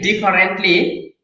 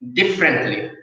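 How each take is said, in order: First: The middle vowel is kept, giving four syllables. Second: The middle vowel is dropped, giving three syllables. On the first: The speaker calls it wrong. "instead of saying differently" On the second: The speaker calls it right. "you have to say differently"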